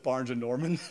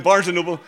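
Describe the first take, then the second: First: Barnes and Norman, with Norman said in place of Noble; saying Norman the way his wife does; wife's mispronunciation. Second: Barnes and Noble, with Noble said correctly, laughing and louder; correcting it to Noble through a laugh; correct name. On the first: Retold or imitated. Preacher mimics his wife calling it Barnes and Norman. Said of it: "she calls it Barnes and Norman". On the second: Shown as a demonstration. Preacher laughingly corrects his wife's Barnes and Norman. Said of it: "no, Barnes".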